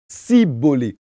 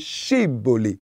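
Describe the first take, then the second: First: The word begins with an s sound. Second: The word begins with an sh sound. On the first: The speaker reveals they are an outsider. The speaker calls it wrong. "incapables de le prononcer correctement, eux, ils disaient plutôt cibolé" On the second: The speaker shows they belong to the group. The speaker calls it right. "au lieu de chibolé"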